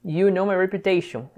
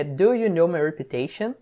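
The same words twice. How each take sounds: First: Said in the usual way. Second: "Do" stressed, slow rise to the end; careful "Do you know" as a slow rising question. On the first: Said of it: "You know my reputation (no auxiliary)". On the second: Shown as a demonstration. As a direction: lean on "Do" and lift the question up. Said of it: "Só pra referenciar a pergunta".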